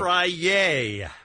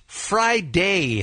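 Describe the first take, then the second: First: No d sound joins the two syllables. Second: A clear d sound joins the two syllables. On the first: The speaker calls it wrong. "Not Fry-yay" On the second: The speaker calls it right. "It's pronounced Friday"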